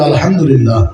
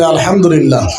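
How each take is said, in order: First: It is said at normal loudness. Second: It is said more loudly.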